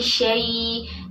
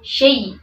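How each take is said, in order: First: The syllable glides softly without a jolt. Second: The syllable is cut off abruptly with a jolt. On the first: The speaker calls it right. "membacanya lembut" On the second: The speaker calls it wrong. "jangan dihentak. Tidak minasyaiton, syai"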